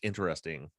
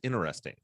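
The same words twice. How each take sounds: First: The T after the N is pronounced. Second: The T after the N is dropped. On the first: The speaker calls it right. "it's interesting" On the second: The speaker calls it wrong. "what I would say was interesting"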